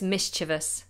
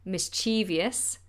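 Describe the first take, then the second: First: The word is said with three syllables. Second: The word is said with four syllables. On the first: The speaker calls it right. "but it's mischievous. Three syllables" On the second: The speaker calls it wrong. "I always say mischievous"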